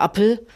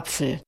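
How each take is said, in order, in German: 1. Der mittlere Konsonant ist ein einfaches 'p'. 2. Der mittlere Konsonant ist 'pf'. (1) "dieses P, so wie im Englischen" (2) "und nicht Apfel"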